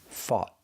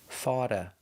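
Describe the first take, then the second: First: The final T is cut off and held. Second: The T sounds like a quick D. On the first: "The T is a stop T" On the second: "the T is pronounced with a fast D"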